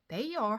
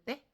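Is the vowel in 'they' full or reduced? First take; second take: full; reduced. First: The word is said fully, with a long two-part vowel. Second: The word is said short and weak, like 'ttae'. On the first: The speaker calls it wrong. "하지 마시고" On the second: The speaker calls it right. "때라고 한번 해보시는 게 아니라 하셔야 돼요"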